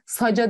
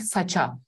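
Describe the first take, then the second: First: The middle consonant is a voiced j. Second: The middle consonant is a voiceless ch. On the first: The speaker calls it wrong. "saca demiyorum" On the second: The speaker calls it right. "Ne demem gerekecek? Saça"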